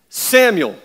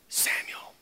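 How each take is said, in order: First: The name is loudly exclaimed. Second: The name is said softly and calmly.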